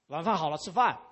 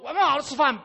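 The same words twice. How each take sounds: First: It is said in a calm, plain tone. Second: It is said in an angry, explosive tone. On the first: This is a simple announcement that dinner is ready. "那这是一句话" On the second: The caller has lost patience and slammed a bowl down. "是表示某个碗已经摔在地上了"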